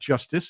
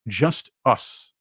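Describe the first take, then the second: First: It is said smoothly as one word. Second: It is split into two separate words. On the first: The party stands for fairness. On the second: The party only looks after itself.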